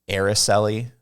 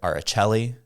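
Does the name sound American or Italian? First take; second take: American; Italian. First: The name is said with an American 'eh' vowel. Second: The name is said with an Italian-sounding twist. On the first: "There's nothing more American or northern than using the eh" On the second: "kind of like an Italian twist to it"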